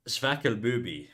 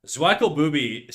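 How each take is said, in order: First: Slow, tentative German accent, Zwackelbubi starting like "sfackel"; attempted German accent. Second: Said in the usual way. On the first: Shown as a demonstration. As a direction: try Zwackelbubi as a German would, slowly. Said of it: "don't know how to do a German accent". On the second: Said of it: "how to do a German accent".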